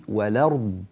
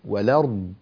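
Both takes have the same delivery.

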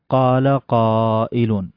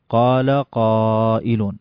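No difference in how they are said.

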